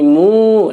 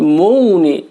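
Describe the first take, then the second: First: The vowel is held long. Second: The vowel is cut short. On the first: The speaker calls it right. "tapi mu, karena duma diikuti sukun dibaca dibaca panjang" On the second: The speaker calls it wrong. "bukan mu nih"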